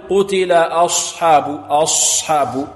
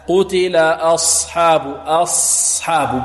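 First: Slow "أصحاب" with lips rounded on the ص; wrong lip rounding. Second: Slow, held ص in "أصحاب" with lips unrounded; unrounded heavy ص. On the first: Teacher showing students the mistake, rounded ص in "أصحاب". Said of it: "خطأ". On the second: Teacher correcting the mistake, "أصحاب" with unrounded ص. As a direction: hold a heavy ص in "أصحاب", no lip rounding. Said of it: "بدون ضم الشفتين". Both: Shown as a demonstration.

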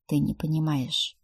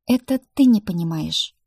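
First: Weary; heavy weary sigh. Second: Ты punched louder and defiant; stubborn retort; stress on ты. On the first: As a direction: sigh out the words. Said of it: "тяжело вздохнул Рик". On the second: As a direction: throw ты back at him. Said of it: "сквозь зубы упрямо процедила я". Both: A narrator's reading.

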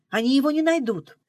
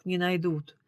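First: Confident insistence. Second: Sighing echo. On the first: Girl assures driver her brother is safe, confidently. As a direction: stress on не, said firmly and higher. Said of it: "«Наивная»". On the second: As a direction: sigh out her words back at her. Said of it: "вздохнул Журавлёв". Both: A narrator's reading.

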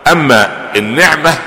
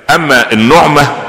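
First: النعمه said slowly with i, an-niʕma; drawn-out النعمه with kasra: an-niʕma; kasra reading. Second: النعمه said slowly with u, an-nuʕma; drawn-out النعمه with damma: an-nuʕma; damma reading. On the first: Sheikh explains the second meaning: النعمه as an-niʕma. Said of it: "النعمه بالفتح". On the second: Sheikh explains joy meaning: النعمه as an-nuʕma. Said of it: "المسره والفرح". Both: Shown as a demonstration.

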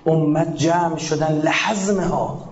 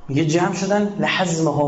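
First: Slow recitation. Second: Said in the usual way. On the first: Shown as a demonstration. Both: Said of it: "quotes then explains the phrase".

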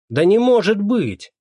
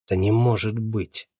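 First: Much higher, louder, slower "может"; shocked gasp. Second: Said in the usual way. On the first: A narrator's reading. Neighbour hearing Motalo died, loud shocked disbelief. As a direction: cry out in disbelief.

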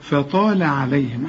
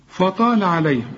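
First: Slow فطال with thin fa and la, light عليهم; light faa, heavy taa. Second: فطال with a thickened fa; deliberately heavy faa. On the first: Teacher corrects the mistake, light faa in فطال عليهم. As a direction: thicken only the taa in فطال. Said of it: "مرققة دائمًا". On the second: Teacher tests student with a mistake, heavy faa in فطال. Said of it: "أيوه، أنا قلت غلط". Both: Shown as a demonstration.

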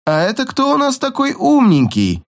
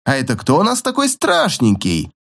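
First: High mocking baby talk. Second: Put-on talking to a baby. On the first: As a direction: coo it nastily like to a toddler. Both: A narrator's reading. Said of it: "Противно засюсюкал игрок".

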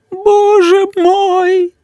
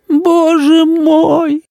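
First: Slow, high wailing moan; mother keeps wailing at the stain; moaning again. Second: Drawn-out high moan of despair; mother moaning over the ruined dress. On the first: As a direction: let the despair rise even higher. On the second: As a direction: groan it out slowly, high and despairing. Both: A narrator's reading. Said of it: "простонала мама".

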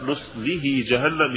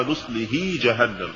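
First: Said in the usual way. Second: Imitated faulty نصله جهنم; mispronounced recitation. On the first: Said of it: "يقرأها". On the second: Shown as a demonstration. Interviewer quotes readers to the doctor, faulty نصله. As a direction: say نصله as some readers misread it. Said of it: "نفس الموضوع".

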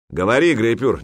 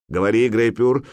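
First: Louder, higher impatient order; displeased. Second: Raised, urging command; encouraging. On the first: The jarl pressing his silent warrior to speak, displeased. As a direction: demand an answer, displeased. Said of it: "недовольно произнёс Храгнир-хитрец". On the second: The jarl prompting his warrior to speak, encouraging. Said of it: "поощрил Ярл". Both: A narrator's reading.

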